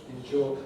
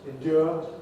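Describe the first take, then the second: First: The middle consonant is a j sound. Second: The middle consonant is a d sound. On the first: "The new pronunciation has j" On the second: "we traditionally had d"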